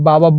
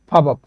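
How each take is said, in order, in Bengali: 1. শব্দটি সাধারণ b ধ্বনি দিয়ে শুরু হয়। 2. শব্দটি মহাপ্রাণ ph ধ্বনি দিয়ে শুরু হয়। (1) "আমি যদি বাবাপ বলি তাহলে এটা ভুল" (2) "সঠিক উচ্চারণ হবে ফাবাপ"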